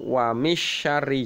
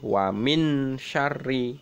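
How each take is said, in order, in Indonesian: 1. Bunyi n sama sekali tidak dibaca. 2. Bunyi n dibaca jelas dan penuh. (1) "atau wa misyarri juga tidak boleh" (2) "tidak boleh wa min syarri"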